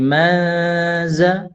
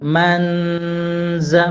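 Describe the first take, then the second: First: Only a faint nasal hum comes before the z. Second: A full n sound is heard before the z. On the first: The speaker calls it right. "dengung tipis" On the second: The speaker calls it wrong. "dengungnya terlalu n"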